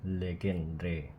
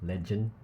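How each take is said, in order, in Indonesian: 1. Bunyinya tidak seperti kata legend. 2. Bunyinya seperti kata bahasa Inggris legend. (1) "it's Legendre" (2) "It's not pronounced legend"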